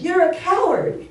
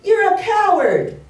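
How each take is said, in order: First: High, loud mimicked echo; acted voice shouting back. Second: High, loud, drawn-out taunt; acted child's challenge, pitched way up; boy yelling. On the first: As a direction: throw the taunt back like an echo. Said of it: "And the voice says". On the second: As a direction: shout the insult slowly into the forest. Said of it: "he yells out".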